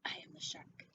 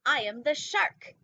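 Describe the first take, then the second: First: Breathy hushed whisper of the line; a soft unvoiced whisper. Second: Slow, loud, big announcement of the title; a slow loud dramatic title read. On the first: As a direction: whisper it like a secret. Whispered repeat of the title. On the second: Acted. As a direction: boom it out like a movie trailer. Dramatic reading of book title.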